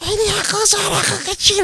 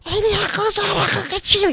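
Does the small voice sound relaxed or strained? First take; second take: strained; strained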